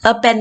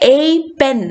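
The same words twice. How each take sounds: First: The word 'a' has a reduced vowel. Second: The word 'a' has a full vowel. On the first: "പെട്ടെന്ന് പറയുമ്പോൾ" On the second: "എന്ന് പറയേണ്ട ആവശ്യമൊന്നുമില്ല"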